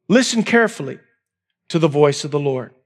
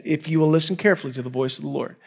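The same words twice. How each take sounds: First: Listen carefully drawn out, pause before to the voice of the Lord; slow, spaced emphasis. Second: Quick quoted reading. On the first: Preacher stressing the verse to the congregation, deliberate and slow. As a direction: lean on listen, then let it land low. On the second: Preacher reading the verse aloud to the congregation, fast. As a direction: read the verse straight through, fast. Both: Shown as a demonstration. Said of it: "That's what it says".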